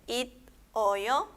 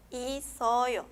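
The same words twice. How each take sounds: First: "it o yo" split after a stopped t, then o-yo; unlinked reading. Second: "i, soyo" as i-so-yo, consonant carried onto the o as s; linked reading. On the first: Teacher showing no va a ser, "it o yo" broken apart. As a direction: cut "it" short, pause, then say "o yo". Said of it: "No va a ser". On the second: Teacher showing se va a unir, "i, soyo" read i-so-yo. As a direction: open the second syllable of "i, soyo" with s. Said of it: "esta se va a unir". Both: Shown as a demonstration.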